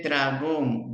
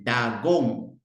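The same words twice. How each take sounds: First: "dragón" said slowly with a clear rolled dr; correct dragón. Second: "dagón" said slowly, dropping the r after d; child's mispronunciation. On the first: Therapist showing the word the child should say, slowly. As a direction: stretch out "dragón" with a clear dr cluster. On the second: Therapist imitating a child's error, slowly. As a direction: imitate the child who says "dagón" without the r. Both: Shown as a demonstration. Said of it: "No dice dragón, dice dagón".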